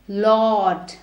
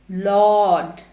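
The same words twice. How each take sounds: Both takes have the same delivery.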